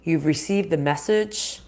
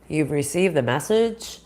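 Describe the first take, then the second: No difference in how they are said.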